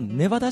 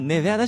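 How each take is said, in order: First: The middle vowel is an open 'ah' sound. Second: The middle vowel is between 'a' and 'e'. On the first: The speaker sounds like an outsider. The speaker calls it wrong. "あいつネバダって発音間違ったから" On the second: The speaker sounds like a local. The speaker calls it right. "あいついい発音してるから"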